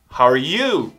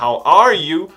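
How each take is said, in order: First: The word 'you' is said with extra stress. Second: The word 'you' is not given extra stress. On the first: "é muito comum aqui nos Estados Unidos a entonação ser um pouco maior no you" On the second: "Ao invés de falar how are you"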